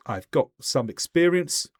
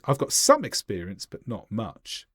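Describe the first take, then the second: First: Said in the usual way. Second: "some" stressed, then "but not much" dropping away; emphasis on some. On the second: Shown as a demonstration. Painter answers about painting walls, stressed "some". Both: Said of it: "or should I say".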